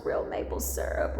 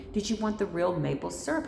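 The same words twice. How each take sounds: First: Whispered real maple syrup; a whispered real maple syrup, savoured; hushed relish. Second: Said in the usual way. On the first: Retold or imitated. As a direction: breathe the words like a treat.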